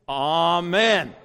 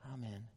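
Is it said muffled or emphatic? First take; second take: emphatic; muffled. First: It is said loudly and emphatically. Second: It is said quietly and muffled.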